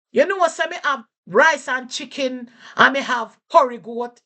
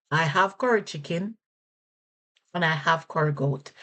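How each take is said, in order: First: High, loud Jamaican patois answer; a shopkeeper listing dishes in patois. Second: Said in the usual way. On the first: Shown as a demonstration. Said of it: "Person might say". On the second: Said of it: "what they're saying is that".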